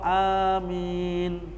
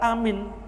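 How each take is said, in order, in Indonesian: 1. Vokal pertama diucapkan panjang. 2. Vokal pertama diucapkan pendek.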